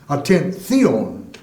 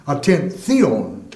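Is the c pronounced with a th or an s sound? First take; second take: th; th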